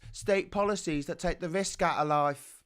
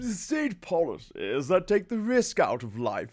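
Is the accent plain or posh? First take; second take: plain; posh. First: It is said in the speaker's ordinary accent. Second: It is said in a put-on upper-class accent.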